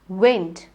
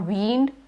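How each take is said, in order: First: The vowel is a short E sound. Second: The vowel is a long E sound. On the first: The speaker calls it right. "You say wind. It's the short E" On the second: The speaker calls it wrong. "or wind"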